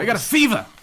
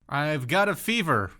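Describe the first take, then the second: First: It is said in a put-on walk-in voice. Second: It is said in a normal voice.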